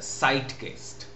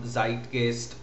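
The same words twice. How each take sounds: First: The word begins with an s sound. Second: The word begins with a z sound.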